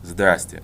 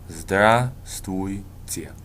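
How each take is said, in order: First: The greeting is said fast, with syllables squeezed. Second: All the syllables of the greeting are pronounced. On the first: This is pretty informal. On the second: This is the formal version.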